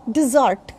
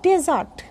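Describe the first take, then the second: First: Dessert as di-ZURT, r sounded; model pronunciation. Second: Desert as DE-zart, open first e; model pronunciation. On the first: Teacher naming the sweet dish, di-ZURT. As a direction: stress the second syllable of dessert. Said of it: "if I'm talking about a sweet dish". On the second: Teacher naming the sandy land, DE-zart. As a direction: begin desert with a clear e. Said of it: "then it is called desert". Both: Shown as a demonstration.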